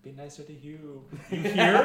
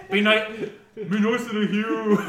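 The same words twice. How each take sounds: First: Higher, badly faked Celtic voice; lightly hammed Celtic accent; shitty Celtic accent. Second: Loud, high, slow mock-Celtic call; hammed-up, drawn-out bad Celtic accent; shitty Celtic accent. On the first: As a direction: call out in a dodgy Celtic accent. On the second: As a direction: call through the veil in a terrible Celtic accent. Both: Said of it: "in a really shitty Celtic accent".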